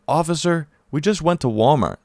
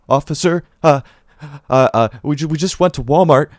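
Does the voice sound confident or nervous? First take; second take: confident; nervous. First: It is said smoothly in a confident voice. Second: It is said hesitantly in a scared, faltering voice. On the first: "as much confidence in my voice as I do now as I'm saying this" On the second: "It probably sounded more so like"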